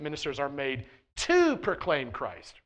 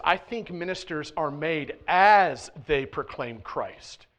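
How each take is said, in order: First: TO punched and drawn out; stress on TO. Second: AS stretched out and loud; slow down and punch the word "as"; stress on AS. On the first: Preacher stating the easy pitch to his congregation, stress on TO. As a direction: lean hard on the word "to". Contrasts called to with made as. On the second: Preacher adding his own point to the congregation, emphatic stress on AS. Contrasts made to with made as. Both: Shown as a demonstration.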